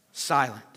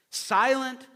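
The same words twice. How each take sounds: First: Dropped low, falling on Silent; low and final, the congregation's answer. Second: Silent lifted higher and leaned on; pressing the word home a second time; raised repeat. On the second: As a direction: say Silent again, higher and firmer. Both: Shown as a demonstration. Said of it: "So let all the earth be what?".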